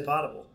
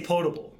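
First: Potable said POT-able, with an "ah"; short open "ah" opening the word potable; short-o pronunciation. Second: Potable said POE-table, with a long "oh"; long "oh" opening the word potable; long-o pronunciation. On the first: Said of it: "Some people say potable". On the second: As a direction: say potable with the "oh" of "boat". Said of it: "I say potable". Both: Shown as a demonstration.

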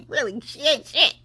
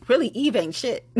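First: Laughing. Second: Said in the usual way. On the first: Real, not acted. Host repeats her dig on the board member, laughing. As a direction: repeat it laughing through the words.

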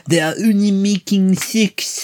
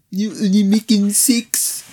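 First: Slow, high, mock-moaning accent; mock moaning French accent. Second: Slow, high put-on accent; mock French accent. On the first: Host mimics the actress in the porn theatre, mock French moan. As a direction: ham up her offended moan. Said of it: "she's moaning". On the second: Friend repeats the actress's line back, mock French accent. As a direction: echo the line as a joke.

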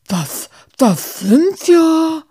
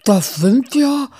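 First: Much higher, louder and slow, stuck on the words; words fail him entirely; speechless stammer. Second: Higher, louder, catching on the words; lost for words at the sight; stunned stammer. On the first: Muff stares at the rats, speechless and stammering. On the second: Muff sees the rats and falters, stunned. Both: Acted. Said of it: "Muff verschlug es die Sprache".

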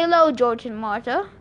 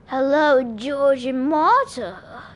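First: Said in the usual way. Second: Slow, raspy snake voice with drawn-out words; raspy male snake. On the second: A narrator's reading. Snake greeting in Percy's head, raspy and sarcastic. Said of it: "a raspy male voice said".

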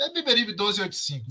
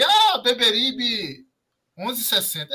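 First: Said in the usual way. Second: Arrastado e mais agudo, debochando; imitando com deboche. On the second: Retold or imitated. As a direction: zomba do endereço errado, lento. (voz de deboche) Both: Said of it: "tão postando aí".

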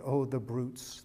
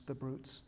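First: Tearful cry. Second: Softer tearful echo. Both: Acted. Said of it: "with tears pouring down her cheeks".

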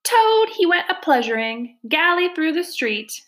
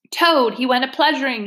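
First: Squeaky little weasel, pitched way up; high squeaky voice. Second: Mild acted yell, pitched up. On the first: Chief Weasel starts his song about Toad, high squeaky voice. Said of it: "began in a high, squeaky voice". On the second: Toad charges the Chief Weasel, mild indignant yell. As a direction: throw the taunt back as a restrained yell. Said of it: "he yelled". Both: A narrator's reading.

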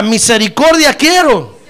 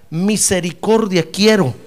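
First: Louder, slow call-and-response. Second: Said in the usual way. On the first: Shown as a demonstration. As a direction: proclaim it loudly and slowly. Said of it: "A ver, diga". (proclamación fuerte y lenta) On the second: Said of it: "a ver, diga".

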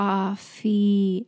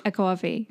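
First: "Coffee" drawn out with a rising tune, practising the local vowel; careful Canadian coffee. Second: "coffee" with a long rounded New York "caw". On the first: Shown as a demonstration. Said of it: "until I figured it out". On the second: Retold or imitated. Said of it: "stereotypical New York accent".

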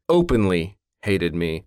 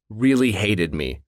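First: Openly hated me, slow, leaning on openly; stress on openly. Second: Really hated me, slow, leaning on really; stress on really. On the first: Recalls the boss's hostility, stressing openly. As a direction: correct yourself and hit "openly" harder, slowly. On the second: Coworker recalls a boss, stressing really. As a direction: lean on "really" and draw it out slowly. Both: Real, not acted.

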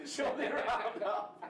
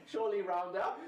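First: Higher, slower, laughing through it; pleading through laughter; laughing plea. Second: Said in the usual way. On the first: Real, not acted. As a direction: beg again while cracking up. Begging to round up score.

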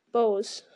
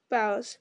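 First: "Bows" rhyming with "nose"; long-o pronunciation. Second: "Bows" rhyming with "cows"; ow pronunciation. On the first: Reader retaking a word, "Bows" rhyming with "nose". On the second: Reader retaking a word, "Bows" rhyming with "cows". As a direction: say "Bows" with an ow, like bending forward. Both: Shown as a demonstration.

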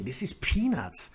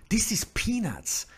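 First: Said in the usual way. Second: Whispered aside. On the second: Real, not acted. Repeats it whispered, higher.

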